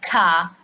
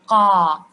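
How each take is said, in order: First: It starts with a plain front k sound. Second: It starts with a k made deep in the throat. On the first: The speaker calls it wrong. "not ka" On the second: The speaker calls it right. "This is the right way to pronounce the qaf"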